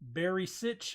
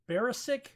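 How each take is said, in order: First: The name ends with a soft 'sitch' sound. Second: The name ends with a hard 'sick' sound. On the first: The speaker calls it right. "Sitch instead of sick" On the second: The speaker calls it wrong. "is what I've been pronouncing it"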